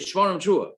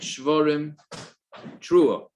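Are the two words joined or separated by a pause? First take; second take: joined; separated. First: The two words run together without a pause. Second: A pause separates the two words. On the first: The blower should go straight on without a break. The speaker calls it right. "yikra b'pam achas shvarim trua" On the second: The blower may take a break between the sounds. The speaker calls it wrong. "as opposed to saying"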